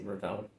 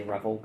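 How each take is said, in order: First: "Revell" with the stress on the second syllable; alternative pronunciation of Revell. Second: "Revel" with the stress on the first syllable; own pronunciation of Revel. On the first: Reseller allowing the other brand name reading, "Revell" stressed at the end. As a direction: say "Revell" as ruh-VELL. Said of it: "but I can see Revell". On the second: Reseller giving the way they say the brand, "Revel" stressed up front. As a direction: say "Revel" as REV-ul. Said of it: "I just say Revel". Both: Shown as a demonstration.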